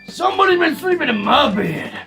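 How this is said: It is said in a growly voice.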